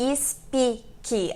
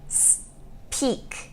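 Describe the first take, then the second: First: An extra vowel sound is added to the word. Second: The word has no added vowel sound. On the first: The speaker calls it wrong. "Não é speak. A gente não coloca nem i no começo nem no final" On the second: The speaker calls it right. "É speak"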